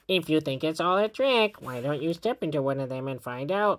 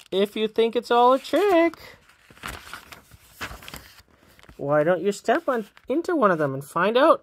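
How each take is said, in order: First: It is read in a goblin's character voice. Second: It is read in a girl's character voice. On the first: A goblin is saying it. The speaker calls it right. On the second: The girls are saying it. The speaker calls it wrong.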